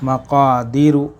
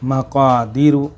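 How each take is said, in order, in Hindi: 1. लंबी 'ee' मात्रा को छोटा काटा जाता है। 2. लंबी 'ee' मात्रा को छोटा काटा जाता है।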